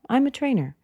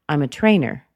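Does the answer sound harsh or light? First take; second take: light; harsh. First: It sounds light and casual. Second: It sounds strong and harsh. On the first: The speaker is friendly and open to talking. The speaker calls it right. "Meaning that it's light, it's casual" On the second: The speaker seems curt and unwelcoming. The speaker calls it wrong. "that's a little bit strong. That's a little bit harsh"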